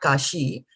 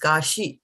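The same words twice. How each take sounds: First: The i vowel is long and drawn out. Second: The i vowel is short and soft. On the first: The speaker calls it wrong. "not kashi" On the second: The speaker calls it right. "So this is kashi"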